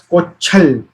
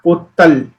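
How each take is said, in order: First: The middle consonant is a ch sound. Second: The middle consonant is a t sound. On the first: The speaker calls it right. "will be pronounced as kochal" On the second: The speaker calls it wrong. "not kottal"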